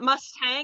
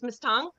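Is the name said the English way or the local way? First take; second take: English; local. First: It is said like the English horse name. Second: It is said in the regional local way. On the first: The speaker calls it wrong. "So it's not Mustang" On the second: The speaker calls it right. "the actual pronunciation uh, in the region is Mustang"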